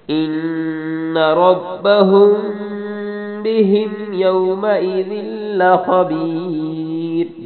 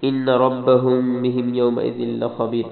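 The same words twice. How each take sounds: First: Slow, higher, louder chanted verse; chanted tajweed demo; sung, melodic recitation. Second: Said in the usual way. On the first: Shown as a demonstration. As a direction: sing it slowly with a held ending. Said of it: "خا کو موٹا پڑھنا ہے". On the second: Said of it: "نون پہ غنہ".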